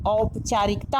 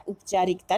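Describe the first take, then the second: First: औपचारिकता with a full "au" at the start; correct pronunciation. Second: उपचारिकता with a short "u" at the start; wrong pronunciation. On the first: Teacher models the right word for students, carefully. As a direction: open औपचारिकता on a clear "au" sound. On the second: Teacher shows students the wrong form, as a counterexample. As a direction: say उपचारिकता with a plain "u" as the error. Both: Shown as a demonstration. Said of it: "उपचारिकता नहीं होता".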